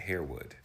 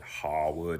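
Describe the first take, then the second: First: The first syllable sounds like 'hair'. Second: The first syllable sounds like 'har'.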